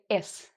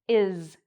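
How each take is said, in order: First: The final sound is a hissing s. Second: The final sound is a buzzing z. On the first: The speaker calls it wrong. "where they pronounce it like an S" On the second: The speaker calls it right. "it's actually pronounced like a Z at the end"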